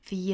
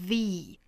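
First: The word is said in a reduced, weak form. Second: The word is said in a full, strong form. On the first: The speaker calls it right. "应该是 the" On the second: The speaker calls it wrong. "它要弱读，所以我们不要把它读成了 the"

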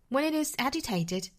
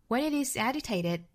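First: It is said with a British accent. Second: It is said with an American accent. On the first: "这句话的英式发法" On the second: "那我们看美音版"

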